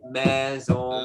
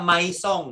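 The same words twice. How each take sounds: First: The letter i is silent, no separate vowel. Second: The letter i is sounded as a separate vowel. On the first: The speaker calls it right. "Jadi Maison" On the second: The speaker calls it wrong. "i-nya nggak dibaca, nggak nggak Maison ya"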